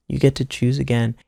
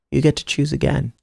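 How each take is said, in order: Both takes have the same delivery.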